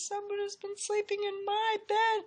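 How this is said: It is said in a wee little voice.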